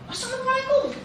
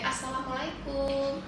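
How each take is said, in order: First: It is said loudly and forcefully. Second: It is said softly and gently.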